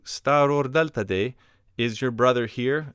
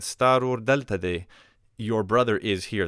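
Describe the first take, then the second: First: "Staror delta de" pitched up as a question; question intonation. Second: "Staror delta de" stated, weight on "Staror"; statement intonation. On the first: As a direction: ask "Staror delta de" with a raised, rising tune. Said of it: "change the intonation of my voice". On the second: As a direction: assert "Staror delta de" without a questioning rise. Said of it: "that would be a statement". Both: Shown as a demonstration.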